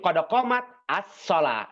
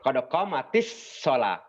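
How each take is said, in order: First: Qomat stops before the next word begins. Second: Qomat runs into the next word with an i. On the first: The reader stops after the word. "Kalau mau waqaf umpamanya bisa saja dibaca cuma jadi begini" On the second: The phrase is read continuously without stopping. "ketika di mau diwasalkan maka biar mudah dikasrohkan"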